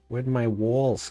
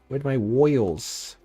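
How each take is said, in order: First: It is said in the speaker's ordinary accent. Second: It is said in a put-on New Jersey accent.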